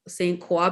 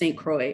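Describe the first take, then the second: First: The name is given a French-style pronunciation. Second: The name is given a plain English pronunciation. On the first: The speaker calls it wrong. "I was pronouncing it Saint Saint Croix because I thought it was French" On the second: The speaker calls it right. "but apparently it's just Saint Croix"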